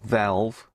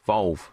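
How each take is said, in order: First: The vowel sounds like an open 'a'. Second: The vowel sounds like a rounded 'o'. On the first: The speaker calls it wrong. "not valve" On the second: The speaker calls it right. "Volve, not valve"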